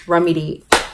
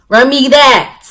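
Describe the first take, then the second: First: Said in the usual way. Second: Loud, high, forceful demand; punchy, raised-voice comic demand; mock demand. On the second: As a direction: belt it out as a playful order.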